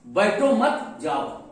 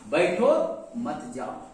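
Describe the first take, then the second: First: The pause comes after 'मत'. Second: The pause comes after 'बैठो'.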